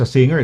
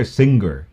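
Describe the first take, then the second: First: Said in the usual way. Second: "singer" with a hard g, as sing-ger; Birmingham pronunciation. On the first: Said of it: "pronunciation na sa singer". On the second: Shown as a demonstration. Host shows how Birmingham says it, hard-g "singer". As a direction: sound the g in "singer" separately. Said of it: "yung Birmingham, ano, pronunciation".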